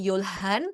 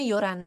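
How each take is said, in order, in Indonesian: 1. Terdengar bunyi l dan h di tengah kata. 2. Bunyi h dihilangkan, sehingga terdengar bunyi r ketuk. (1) "yang awalnya Yolhan" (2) "jadinya Yoran"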